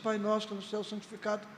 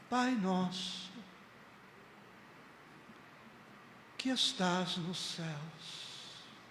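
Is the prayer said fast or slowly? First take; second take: fast; slowly. First: It is said fast and rushed. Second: It is said slowly and calmly.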